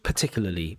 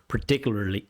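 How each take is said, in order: First: It is said in a British accent. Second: It is said in an American accent. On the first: "British English" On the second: "If it's American English"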